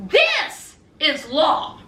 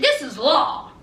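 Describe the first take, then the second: First: "This is law" slowed, each word weighed; slow emphatic repeat. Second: Said in the usual way. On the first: Shown as a demonstration. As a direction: drive home "This is law" slowly.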